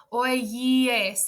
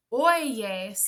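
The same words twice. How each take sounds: First: Oyes said as oíes, vowels sliding apart, o-i-e separate; choppy oíes. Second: Oyes glided smoothly, oy-yes with a clear Y. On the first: Teacher showing students the awkward I version, vowels moving apart. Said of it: "the vowels are, like, moving all over". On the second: Teacher showing students the easier Y version, said smoothly. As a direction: roll oyes out in one smooth glide through the Y. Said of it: "that's very smooth when you say it". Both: Shown as a demonstration.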